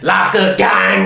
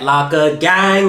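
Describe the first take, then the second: First: It is said with extra emphasis and energy. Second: It is said plainly, without extra emphasis.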